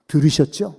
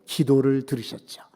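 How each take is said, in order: First: 들으셨죠 asked with a rising tune; rising question. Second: 기도를 stressed, 들으셨죠 falling to a close; falling answer. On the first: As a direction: ask 들으셨죠 upward, inviting the congregation. (들으셨죠를 올려 묻듯이) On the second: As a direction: answer firmly, landing on 기도를. (기도를에 힘주고 내려 맺기) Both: Shown as a demonstration. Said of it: "뭘 들으셨어요?".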